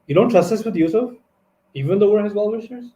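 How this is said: It is said as a rising question.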